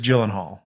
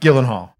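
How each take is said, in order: First: The name begins with a soft sound. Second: The name begins with a hard G sound. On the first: The speaker calls it right. "In American English, it is Gyllenhaal" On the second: The speaker calls it wrong. "You were saying hard G"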